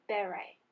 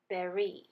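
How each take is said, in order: First: The word does not sound like 'berry'. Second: The word sounds like 'berry'. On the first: "This word is pronounced beret" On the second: "another way we can pronounce this word, as in berry"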